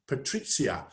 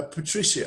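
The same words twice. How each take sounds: First: Patrizia with a "ts" sound for the Z; Z pronunciation. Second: Said in the usual way. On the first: Shown as a demonstration. Host trying an attendee's name, Patrizia said with the Z. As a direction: try saying Patrizia the Italian way, with the Z. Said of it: "I like the Z". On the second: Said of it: "How do you pronounce that?".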